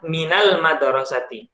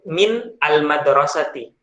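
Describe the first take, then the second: First: Min runs straight into the next word. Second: Min is said apart from al-madrasati. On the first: The speaker calls it right. "Lebih mudah ketika kita baca" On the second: The speaker calls it wrong. "kan agak sulit ketika kita menyebut"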